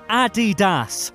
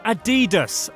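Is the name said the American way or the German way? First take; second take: German; American. First: The name is said the German way. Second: The name is said the American way. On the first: The speaker calls it right. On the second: The speaker calls it wrong.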